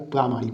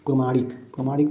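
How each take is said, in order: First: प्रामाणिक starting with long praa; correct long vowel. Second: प्रमाणिक starting with short pra; wrong short vowel. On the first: Teacher correcting the word, long first vowel. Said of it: "होता है". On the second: Teacher showing the mistake, short first vowel. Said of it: "नहीं होता है". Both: Shown as a demonstration.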